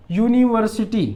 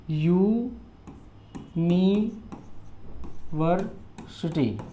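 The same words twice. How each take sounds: First: Said in the usual way. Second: "university" very slow and soft, in separate syllables. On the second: Shown as a demonstration. Teacher showing the starting sound, "university" drawn out by syllables. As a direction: stretch out यू, नि, वर, city in "university". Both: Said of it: "university य से उच्चारण हो रहा है".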